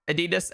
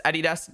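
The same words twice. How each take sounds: First: Adidas said as uh-DEE-dus; a-DEE-das pronunciation. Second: Adidas said as AD-ee-dass; AD-ee-das pronunciation. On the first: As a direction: stress the middle syllable of Adidas. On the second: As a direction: stress the first syllable of Adidas. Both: Shown as a demonstration. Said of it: "Say it the way you want".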